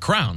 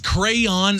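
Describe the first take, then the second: First: The word is said with one syllable. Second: The word is said with two syllables. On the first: The speaker calls it right. "that's just like, okay, it's simple" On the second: The speaker calls it wrong. "that does not come off of your tongue smoothly"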